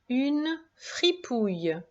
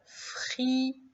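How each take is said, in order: First: Said in the usual way. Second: Fripouille softly cut into syllables; Fripouille, syllable by syllable, hushed; split into syllables. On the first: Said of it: "Mot suivant". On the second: Shown as a demonstration. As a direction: break Fripouille into syllables, quietly. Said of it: "Découpe bien en syllabes".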